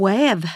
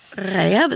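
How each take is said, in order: First: "väv" begun with a rounded back r, like an English w; Västervik R. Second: Said in the usual way. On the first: Shown as a demonstration. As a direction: round the lips on the first sound of "väv", as in "wäv". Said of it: "så talar man om väv". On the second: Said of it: "Man talar ibland om Västerviks-ärret".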